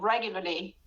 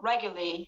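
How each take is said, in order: First: The word is said with two L sounds. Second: The word is said with one L sound. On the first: "You say it the same" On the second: "Or you can make it just one L"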